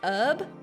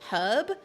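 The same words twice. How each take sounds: First: The word begins with a vowel, no h. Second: The word begins with an audible h sound. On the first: This is how Americans say it. "It's always herb, ... I don't know why we leave off the H" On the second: This is not how Americans say it. "I don't think I've ever heard an American say herb"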